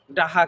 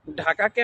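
First: ডাহা with unaspirated d and h for k; Gazipur dialect. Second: Said in the usual way. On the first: Shown as a demonstration. (গাজীপুরের উচ্চারণে ডাহা, ক-এর বদলে হ) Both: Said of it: "আমরা গাজীপুরের মানুষ".

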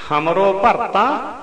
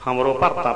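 First: Very slow, drawn-out recital of ਹਮਰੋ bharta; slow reverent verse reading of ਹਮਰੋ bharta; scripture recitation. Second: Said in the usual way. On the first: Acted. Verse chanted very slowly.

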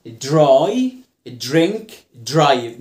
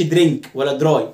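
First: "دراي", "درينك", "درايف" each stressed with blended dr; English DR blend. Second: "درينك ولا دراي" with plain Arabic d and r; wrong DR. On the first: Teacher models DR words, "دراي، درينك، درايف" emphatically blended. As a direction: punch "دراي، درينك، درايف" one at a time, dr as one sound. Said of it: "ما تقولش درينك ولا دراي". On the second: Teacher mimics the mistake, "درينك ولا دراي" plainly Arabized. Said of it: "ما تقولش". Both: Shown as a demonstration.

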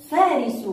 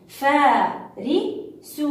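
First: Said in the usual way. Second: Slow, drawn-out فارس with a rising end; stretched syllables. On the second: Shown as a demonstration.

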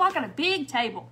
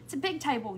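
First: Boasting about the big table; proud boast. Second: Softer, sheepish insistence; admitting the table is small, softly; sheepish retry. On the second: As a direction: quietly insist it's big anyway. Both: Real, not acted. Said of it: "Not really".

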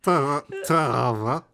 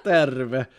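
First: "terve" higher, drawn out as "tava"; wrong R. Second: "Terve" lower, with a rolled R; Finnish demo. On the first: Retold or imitated. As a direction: try "terve" timidly, losing it into "tava". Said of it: "What is this R?". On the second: Shown as a demonstration. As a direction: model "Terve" firmly once more. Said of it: "Terve means hello".

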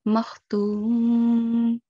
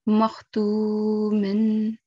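First: Makhtum with a long, level "tuu" closing on "m"; slow recited makhtum, stopped on a still "m"; pausal sukoon form. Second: Makhtumin drawn out slowly with "-in" sounded; long "tuu", then a held "min"; continuing recitation form. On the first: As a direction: drop the "-in" and hold "tuum". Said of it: "change the tanween". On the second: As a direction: recite makhtumin in full, as written. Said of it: "if I'm continuing and reciting in continuation". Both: Shown as a demonstration.

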